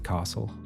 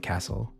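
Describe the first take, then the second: First: It is pronounced the Sydney way. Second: It is pronounced the Adelaide way. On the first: "If you're from Sydney, you'll say castle" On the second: "If you're from Adelaide, you'll say castle"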